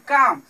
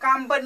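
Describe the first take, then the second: First: The word ends in m with no b. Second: A b sound is pronounced at the end. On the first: The speaker calls it right. "बी का उच्चारण नहीं करेंगे" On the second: The speaker calls it wrong. "इसे काम बन नहीं कहेंगे"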